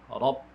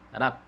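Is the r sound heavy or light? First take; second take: heavy; light. First: The r is heavy with a deep vowel. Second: The r is light with a bright vowel. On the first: The speaker calls it right. "ro dibaca tebal" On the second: The speaker calls it wrong.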